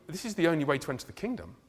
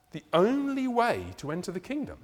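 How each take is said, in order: First: Said in the usual way. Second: Restating it with weight on "only"; emphatic repeat. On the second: Shown as a demonstration.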